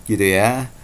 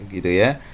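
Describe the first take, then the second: The two takes are said the same way.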